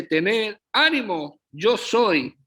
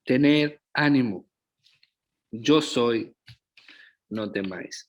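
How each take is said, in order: First: High, slow exclaimed cry across the storm; Jesus calling out to the frightened disciples, high and slow. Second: Calm reassurance. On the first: Retold or imitated. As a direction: call it out slowly, like shouting to frightened men. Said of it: "de inmediato dice que él grita". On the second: Shown as a demonstration. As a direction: say it again tenderly, letting it settle.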